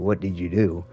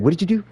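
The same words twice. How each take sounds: First: The phrase is said slowly with each word separate. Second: The phrase is said quickly and run together. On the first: It is the standard way of asking. "which is how I learned how to say" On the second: It is the local slang way of asking. "when you you're quick like"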